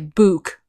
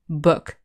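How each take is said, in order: First: The vowel is long, like in moon. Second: The vowel is short and clipped. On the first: The speaker calls it wrong. "We don't say book" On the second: The speaker calls it right. "We say book ... The vowel sound is shorter"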